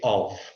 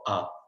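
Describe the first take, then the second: First: The word is said fully with a clear 'v'. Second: The word is reduced to a short 'uh' sound. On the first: "they don't actually say of" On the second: "They say more similar to the to a or a"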